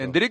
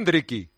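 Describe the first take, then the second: First: The name ends on the k sound. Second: The name ends with an added i sound.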